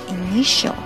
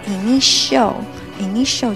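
First: The last syllable ends with a clear curled L. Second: The last syllable ends in an o-like vowel. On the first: The speaker calls it right. "要initial，要把卷舌发出来" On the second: The speaker calls it wrong. "有的同学可能会把它简略的变成o 的音，就是initial 就不对"

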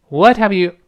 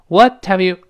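Both takes have the same delivery.

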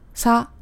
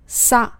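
First: The consonant is lax, with teeth apart. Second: The consonant is tense, with teeth together. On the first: "如果不碰在一起的话呢，就是松音撒" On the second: "上下牙碰在一起的时候就是紧音撒"

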